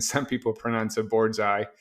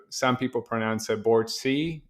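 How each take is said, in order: First: BOARDSEYE with the ending like "eye"; preferred pronunciation. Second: BOARD C with the ending like "see"; alternative pronunciation. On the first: Founder showing the preferred company name, Boardseye rhyming with bullseye. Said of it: "like bullseye". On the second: Founder showing how some pronounce the company name, Board C as BORD-see. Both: Shown as a demonstration.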